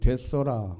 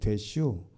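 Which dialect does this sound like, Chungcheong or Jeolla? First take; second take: Jeolla; Chungcheong. First: It is said in Jeolla dialect. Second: It is said in Chungcheong dialect.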